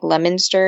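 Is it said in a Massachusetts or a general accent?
Massachusetts. It is said with a local Massachusetts pronunciation.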